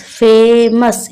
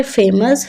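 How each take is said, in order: First: फेमस slowly in two parts, "fay - mus"; slow two-beat फेमस; split into syllables. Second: Said in the usual way. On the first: Shown as a demonstration. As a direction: stretch the first beat of फेमस, then "mus". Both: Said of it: "इसमें भी टू syllables हैं".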